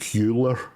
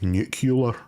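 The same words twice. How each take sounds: First: No extra 'u' syllable comes before the ending. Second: An extra 'u' syllable comes before the ending. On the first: The speaker calls it right. "It doesn't even have another U" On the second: The speaker calls it wrong. "predominantly Americans say it nuclear"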